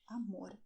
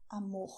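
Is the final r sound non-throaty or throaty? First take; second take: non-throaty; throaty. First: The final r is not made in the throat. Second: The final r is a throaty h-like sound. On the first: This is how the south of the country says it. "in the south of Brazil, we say amor instead" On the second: This is how most of the country says it. "they will use the throat to say amor. It's the same sound that you have in English when you say hot"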